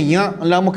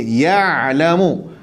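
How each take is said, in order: First: Nasal wrong version. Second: Ya'lamu drawn out very slowly, the ain sounded from the throat; Ya'lamu, slow, with a clear throat ain; Arabic ain in ya'lamu. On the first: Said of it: "jangan ya'lamu ke hidung". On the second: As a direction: stretch Ya'lamu slowly with a true Arabic ain, not nasal. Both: Shown as a demonstration.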